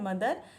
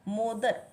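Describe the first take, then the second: First: The first vowel sounds like 'uh'. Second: The first vowel sounds like 'oh'. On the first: It is the normal spoken form of the word. The speaker calls it right. "हमें बोलना है मदर" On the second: It is read letter by letter from the spelling. The speaker calls it wrong. "मो देन द एंड र"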